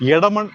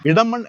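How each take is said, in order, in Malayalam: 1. ഈ പേര് 'e' എന്ന സ്വരാക്ഷരം കൊണ്ടാണ് തുടങ്ങുന്നത്. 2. ഈ പേര് 'i' എന്ന സ്വരാക്ഷരം കൊണ്ടാണ് തുടങ്ങുന്നത്. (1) "ഇയും എയും ഉച്ചരിക്കും" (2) "ഇയും എയും ഉച്ചരിക്കും"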